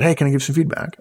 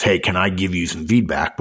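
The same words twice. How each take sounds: First: Light, higher-pitched friendly request; polite tone. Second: Lower, ominous polite question; foreboding feedback request. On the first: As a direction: ask pleasantly, with nothing loaded. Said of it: "it's a polite tone". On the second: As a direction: ask as if bad news is coming. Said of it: "indication that it's gonna be negative". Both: Shown as a demonstration.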